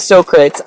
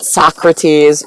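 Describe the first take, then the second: First: The name is said the Greek way. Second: The name is said the American way. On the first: "He said we say Socrates" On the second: "The Americans, they pronounce it Socrates"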